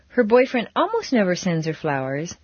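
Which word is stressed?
almost. The stress falls on the word almost. Flowers do come once in a while. "but every once in a while he does"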